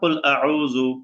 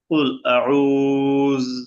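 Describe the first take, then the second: First: The final word ends with a short u vowel. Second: The final word ends on a bare consonant. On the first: The reciter does not stop on this word. "জালের মধ্যে পেশ" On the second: The reciter stops on this word. "সাকিন"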